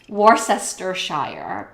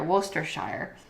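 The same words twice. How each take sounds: First: The middle 'cess' syllable is pronounced. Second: The middle 'cess' syllable is left out. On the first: The speaker calls it wrong. "if you don't know how to pronounce it, you might think it's Worcestershire" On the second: The speaker calls it right. "you just pretend that cess part isn't there"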